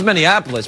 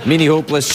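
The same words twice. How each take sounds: First: "Minneapolis" with "app" in the middle; corrected town name. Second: "Minneapolis" said as "Minnie-hopeless"; misread town name. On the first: Host correcting the town, "Minneapolis" pronounced the standard way. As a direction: say "Minneapolis" as "minny-APP-o-lis". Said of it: "which I don't think is the real name". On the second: Host repeating misread town, "Minneapolis" as "Minnie-hopeless". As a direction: say "Minneapolis" with "hope" in the middle. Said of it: "She means Minneapolis". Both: Shown as a demonstration.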